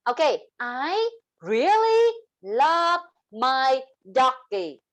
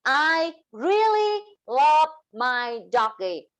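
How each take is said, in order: First: "really" stretched long and rising; slow, lean hard on "really"; slow sing-song stress on "really"; sentence stress. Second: "really" drawn out and falling; slow, stress "really" again then fall; stretched stressed "really"; sentence stress. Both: Shown as a demonstration. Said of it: "That's sentence stress".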